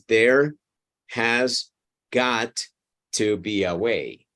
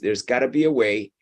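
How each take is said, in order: First: Each word is said separately and in full. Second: The words run together in a reduced form. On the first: "is several words sometimes" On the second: "we hear the whole thing together packed into one single word"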